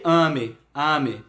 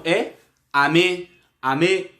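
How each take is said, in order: First: "ame" as Á-me, falling away at the end; wrong reading of "ame", front-stressed; stress on first syllable. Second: "ame" with the weight on the last syllable, a-MÊ; stress on final syllable. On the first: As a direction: hit the opening A of "ame". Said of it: "o som não tá no início". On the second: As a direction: land firmly on the end of "ame". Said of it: "com a tonicidade no final". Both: Shown as a demonstration.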